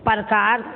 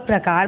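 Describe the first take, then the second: First: प्रकार opened up as "par-kaar"; mispronounced प्रकार. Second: Said in the usual way. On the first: Shown as a demonstration. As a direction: move the r in प्रकार after the vowel, "parkaar". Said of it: "प्रकार नहीं होता". (प्रकार को गलत "परकार" बोलना) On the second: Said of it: "प्रकार बोलते हैं ना".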